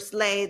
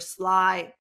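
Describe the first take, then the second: First: The vowel sounds like 'ay', as in slay. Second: The vowel sounds like 'eye', as in sly. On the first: "depending how you pronounce it" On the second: "or SLY or SLAY, depending how you pronounce it"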